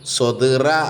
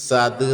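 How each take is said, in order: First: The first s sound is heavy and emphatic. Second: The first s sound is light and plain. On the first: The speaker calls it right. "സ്വദിറ എന്നുള്ളിടത്ത്" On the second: The speaker calls it wrong. "സദിറ എന്ന് പറയരുത്"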